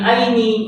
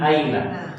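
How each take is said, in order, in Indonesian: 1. Kata itu berakhir dengan vokal 'i'. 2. Kata itu berakhir dengan vokal 'a'. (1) "Jadi tidak bisa min aini, tidak bisa" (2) "Jadi min aina"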